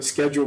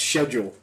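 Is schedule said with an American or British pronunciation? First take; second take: American; British. First: It is said with an American pronunciation. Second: It is said with a British pronunciation. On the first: "me being the stupid American" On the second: "pronounced schedule"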